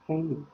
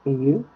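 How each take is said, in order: First: "Can" said quick and light, a bit softer; short unstressed can. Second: "Can you" louder, with a firm full "Can"; stressed can. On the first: Teacher contrasting weak can with stressed can. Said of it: "When you don't have stress, it's short". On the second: Teacher contrasting stressed can with weak can. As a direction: punch "Can" and let it ring. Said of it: "when you have the stress is longer". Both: Shown as a demonstration.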